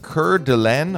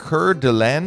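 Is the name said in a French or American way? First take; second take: French; French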